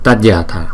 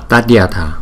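No difference in how they are said.

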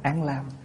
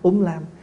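First: It begins with 'an' and the second word has 'l'. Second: It begins with 'um' and the second word has 'l'. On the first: This is the reading used now. "mình đọc bây giờ là" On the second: This is how Northerners read it. "người Bắc âm là"

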